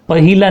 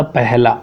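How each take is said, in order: First: "पहिला" with an i after the h; wrong pronunciation. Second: "पहला" with no i after h; correct pronunciation. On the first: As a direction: say "पहिला" as pa-hi-la, higher pitched. ("पहिला" में हि, गलत उच्चारण) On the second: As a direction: say "पहला" as peh-la, settling down. ("पहला" का सही उच्चारण, बिना इ के) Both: Shown as a demonstration. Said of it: "पहिला नहीं होता".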